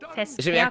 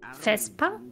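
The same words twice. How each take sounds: First: The word is said in a regional dialect. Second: The word is said in standard German. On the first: "wenn du es im Dialekt aussprichst" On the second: "Vesper ist schon ein normales Wort"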